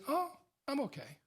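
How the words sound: It is said with a slight hesitation.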